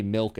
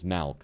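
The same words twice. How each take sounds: First: Said in the usual way. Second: MILK pronounced "malk"; "malk", mimicking regional milk; Midwestern vowel. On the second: Shown as a demonstration. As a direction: swap the short i of milk for an open vowel, "malk". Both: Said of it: "if you say milk as malk".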